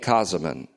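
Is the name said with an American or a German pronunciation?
German. The name is said with a German pronunciation.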